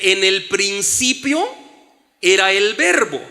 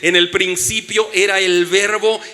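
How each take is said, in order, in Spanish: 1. La oración se lee lenta y deliberadamente. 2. La oración se lee a un ritmo normal.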